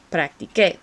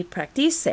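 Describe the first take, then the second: First: Practiqué ending in a hard "keh"; maintained K sound. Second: Practice read as Spanish "practisé", ending in "seh"; wrong soft C. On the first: Teacher giving the respelt past form, Practiqué with a K sound. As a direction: say Practiqué as prac-tee-KEH, stressed at the end. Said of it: "to maintain that K sound". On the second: Teacher showing the misspelt past form, practice ending in "seh". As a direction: say practice as prac-tee-SEH, with an S sound. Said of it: "we don't want the se". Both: Shown as a demonstration.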